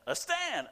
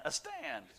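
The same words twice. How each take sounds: First: Said in the usual way. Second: A stand, much higher, in a put-on wife's voice; high mimicked a stand; mimicking her call. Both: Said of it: "she called her husband a Stan".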